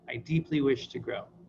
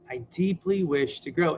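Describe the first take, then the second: First: It sounds flat and not fully meant. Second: It sounds warmer and more heartfelt. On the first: The speaker does not yet really mean it. "you're always starting from a pretty limited place" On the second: The speaker means it a little more. "bring a little more sincerity"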